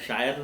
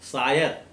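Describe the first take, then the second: First: The word begins with an 'sh' sound. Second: The word begins with a plain 's' sound. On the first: It is the modern form, not the one meant here. "मैं शायर नहीं कह रहा हूँ" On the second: It is the older form used in the poet's era. "Kabir साहब के ज़माने में शायर की जगह पर शायर ही बोला जाता था"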